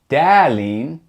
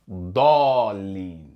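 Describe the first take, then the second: First: The first D sound is light and thin. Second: The first D sound is heavy and deep. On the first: The speaker calls it wrong. "You don't hear dalin" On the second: The speaker calls it right. "It's pronounced like da, dallin"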